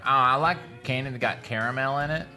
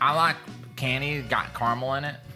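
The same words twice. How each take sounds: First: Caramel is said the fancy, refined way. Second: Caramel is said the casual, everyday way. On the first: "but you don't say like, oh" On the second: "like I'm gonna eat caramel"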